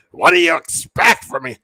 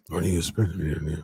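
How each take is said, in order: First: Higher, louder raspy outburst; old Vince shouting. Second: Put-on old Vince voice. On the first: Retold or imitated. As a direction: bark it like an irritated old boss. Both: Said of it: "Vince's voice".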